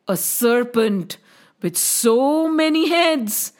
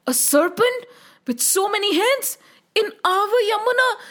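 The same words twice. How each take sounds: First: Tag. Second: High, frightened disbelief; scared children. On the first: Old man reveals the danger. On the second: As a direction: echo the news like alarmed children. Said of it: "The children got very scared". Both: A narrator's reading.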